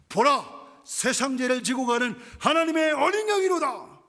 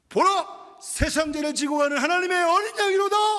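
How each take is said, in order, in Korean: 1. 처음보다 조금 더 크게 외칩니다. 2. 모든 것 중 가장 큰 소리로 외칩니다. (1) "조금 더 크게" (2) "좀 더 목소리를 키워서"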